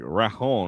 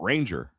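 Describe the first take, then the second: First: The name is said with a different middle sound. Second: The name sounds like the English word ranger. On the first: The speaker calls it right. "It's like Rajon or Ra Rahar or something like that" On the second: The speaker calls it wrong. "we've been saying it wrong"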